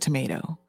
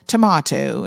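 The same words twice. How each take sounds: First: The word is said in a non-British accent. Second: The word is said in a British accent. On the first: "instead of tomato" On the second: "the aunt and uncle from the UK ... they're saying tomato"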